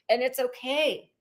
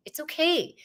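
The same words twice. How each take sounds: First: Whispered reassurance. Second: Said in the usual way. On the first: Real, not acted. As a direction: whisper it gently. Soft repeat of reassurance.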